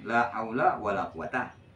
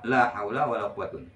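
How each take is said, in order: First: The last word ends in a plain 'a' vowel. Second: The last word ends in an 'un' sound. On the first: "Patah macam"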